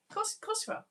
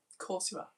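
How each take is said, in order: First: "of course, of course you are" pitched high in playful outrage; a high squeaky mock protest; mock indignant. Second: Said in the usual way. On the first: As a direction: tease them with fake exasperation. Mock outrage at puppet news.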